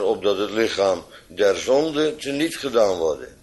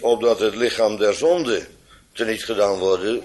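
First: 'Der zonde' is set apart from 'lichaam' by a break. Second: 'Lichaam der zonde' is spoken as one unbroken phrase. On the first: The body is made powerless with respect to sin. The speaker calls it right. "het lichaam teniet gedaan zou worden, namelijk der zonde" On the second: It speaks of a body that belongs to sin. The speaker calls it wrong. "niet zo dat hier gesproken wordt over een lichaam, namelijk het lichaam der zonde"

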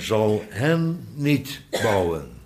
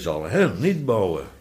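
First: The phrase is read with plain, even emphasis. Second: The phrase is read with strong, heavy stresses.

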